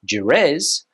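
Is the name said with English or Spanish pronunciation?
English. It is said with English pronunciation. "In English, we would say"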